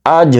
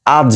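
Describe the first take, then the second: First: আজ with a bouncing stop on the final j; qalqala on আজ. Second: Said in the usual way. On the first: Shown as a demonstration. Teacher contrasting the wrong আজ with the right one. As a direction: drop the j of আজ with a small echo. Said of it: "আমরা উচ্চারণ করব". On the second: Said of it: "আজ না কিন্তু".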